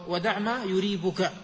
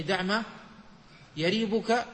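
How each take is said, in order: First: "يريبك" with a damma on the ya, "yuribuka"; ضم الياء. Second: "يريبك" with a fatha on the ya, "yaribuka"; فتح الياء. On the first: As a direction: say "يريبك" opening on "yu", not "ya". ("يريبك" بضم الياء) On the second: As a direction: say "يريبك" opening on "ya", not "yu". ("يريبك" بفتح الياء) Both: Shown as a demonstration. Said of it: "هو بفتح الياء وضمها".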